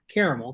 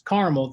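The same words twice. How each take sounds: First: The word is said with three syllables. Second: The word is said with two syllables. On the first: This is how the speaker personally says it. "I pronounce it caramel because there's clearly three syllables" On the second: This is the regional way people say it. "it's caramel there"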